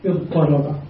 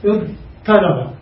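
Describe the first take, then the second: First: اضطرب said with an emphatic ṭ, "iḍṭaraba"; t changed to ṭ. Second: اضطرب said with a plain t, like "iḍtaraba"; original form. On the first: Teacher shows students the final form with emphatic ṭ. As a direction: give اضطرب the heavy ṭ after the ḍ, softly. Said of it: "نبدل التاء طاء". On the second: Teacher shows students the original form with plain t. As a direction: sound out اضطرب as its unassimilated root form with t. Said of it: "في الأصل". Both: Shown as a demonstration.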